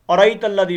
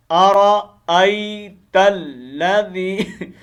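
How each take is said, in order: First: अराई तल्लज़ी said quickly, hamza dropped; wrong pronunciation. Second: अराई तल्लज़ी drawn out slowly with a clear hamza; correct hamza. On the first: Teacher showing the common mistake, hamza left out. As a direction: rush अराई with no glottal catch. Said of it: "और इसमें गलती क्या होती है". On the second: Teacher showing the correct reading, slow and clear. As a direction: stretch अराई and mark the glottal stop. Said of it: "इस हमजे का ख्याल रखना है". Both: Shown as a demonstration.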